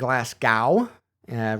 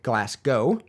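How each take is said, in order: First: It is said in a lazy Midwestern way. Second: It is said in a more accurate way. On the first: The speaker calls it wrong. "it sounds like I'm saying Glasgow uh" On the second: The speaker calls it right. "the more accurate Glasgow"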